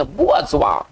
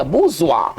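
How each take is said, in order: First: बुआजुआ with an extra "a" after "bu": bu-a-zwa; pronunciation demo. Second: बुजुआ run together as buzh-wa, no "a" after "bu"; pronunciation demo. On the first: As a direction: say बुआजुआ in three parts, bu-a-zwa, falling at the end. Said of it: "उच्चारण यहाँ लिखा है, इसको पढ़ेंगे". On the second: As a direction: say बुजुआ in two syllables, bu-zwa, falling. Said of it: "इसको पढ़ेंगे". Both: Shown as a demonstration.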